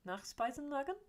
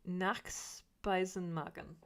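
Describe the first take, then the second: First: Nachspeisenmagen with a high questioning rise at the end; second try at Nachspeisenmagen, pitched up and doubtful; checking whether Nachspeisenmagen was right, rising high; unsure German attempt. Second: Nachspeisenmagen sounded out slowly, syllable by syllable; slow careful try at the German word Nachspeisenmagen; careful German attempt. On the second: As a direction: spell out Nachspeisenmagen slowly like a learner. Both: Shown as a demonstration. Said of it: "She said, attempting to".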